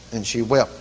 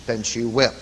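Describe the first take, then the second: No difference in how they are said.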